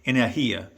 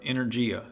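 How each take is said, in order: First: It is said imitating a Russian pronunciation. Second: It is said with a plain English pronunciation.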